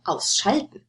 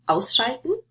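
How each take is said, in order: First: "ausschalten" stressed on SCHAL; wrong stress on the stem. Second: "ausschalten" stressed on AUS; stress on the prefix. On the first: Teacher offering the wrong option, SCHAL stressed in "ausschalten". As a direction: move the stress in "ausschalten" to the second syllable, SCHAL. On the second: Teacher asking where the stress goes, AUS stressed in "ausschalten". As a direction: hit the first syllable of "ausschalten". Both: Shown as a demonstration. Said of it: "stress on the prefix or not".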